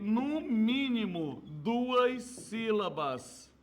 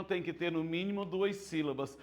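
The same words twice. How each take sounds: First: "no mínimo, duas sílabas" drawn out slowly, each word weighted; slow emphasis. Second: Said in the usual way. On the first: Shown as a demonstration. Teacher stressing the minimum of "duas sílabas", slow.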